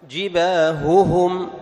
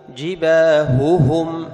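No difference in how they are said.

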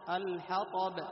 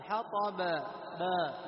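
First: The final b ends in a short bounce. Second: The final b is drawn out into a vowel. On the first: The speaker calls it right. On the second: The speaker calls it wrong.

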